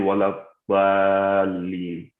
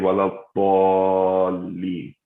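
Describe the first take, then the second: First: The vowel is light and open. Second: The vowel is heavy and rounded. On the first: The speaker calls it wrong. "we don't say walabolin" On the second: The speaker calls it right. "we say all instead of at"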